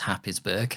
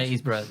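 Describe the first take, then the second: First: The name is said as spelled, starting 'hap'. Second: The name is said starting 'hays', not 'hap'. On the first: This is how the spelling suggests it is said. "it looks like it's Happisburgh" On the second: This is how local people say it. "Haysborough locally"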